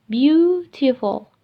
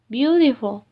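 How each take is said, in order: First: "beautiful" with a long, stressed BEAU; emphatic stress. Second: Said in the usual way. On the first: Shown as a demonstration. Teacher giving loudness example, "beautiful" stressed and drawn out. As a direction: stretch the first syllable of "beautiful" slowly.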